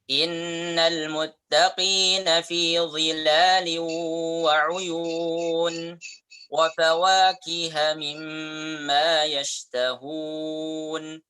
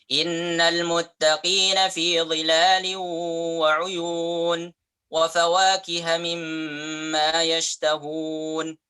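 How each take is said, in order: First: It is recited at a medium speed. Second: It is recited quickly. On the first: It is the usual pace for leading prayer. "Kecepatannya sedang" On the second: It is also used when leading prayer. "itu lebih cepat"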